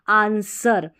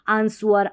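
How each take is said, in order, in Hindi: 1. s के बाद w की आवाज़ नहीं बोली जाती है। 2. s के बाद w की आवाज़ बोली जाती है। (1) "डब्लू साइलेंट है" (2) "आंसवर नहीं"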